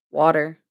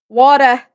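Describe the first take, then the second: First: Said in the usual way. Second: Put-on accent on WATER, loud and higher; mock accent. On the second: Streamer jokes about all the water she sees, mock accent. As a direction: punch out WATER in a playful odd accent. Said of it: "what kinda accent that is".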